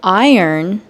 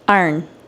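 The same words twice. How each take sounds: First: It is said in a general American accent. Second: It is said in a Baltimore accent. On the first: "For iron" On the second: "they say iron"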